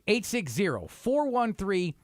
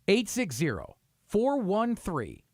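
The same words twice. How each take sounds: First: It is read at a normal pace. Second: It is read slowly.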